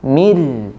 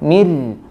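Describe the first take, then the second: Both takes have the same delivery.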